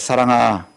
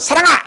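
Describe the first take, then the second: First: The name is called in a soft, gentle voice. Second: The name is called in a loud, sharp voice. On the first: The child is in real trouble. "부드럽게 부를 때 더 무섭습니다" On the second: It is an ordinary scolding, nothing serious. "이럴 때가 평소랑 비슷해서 별 문제가 없는데"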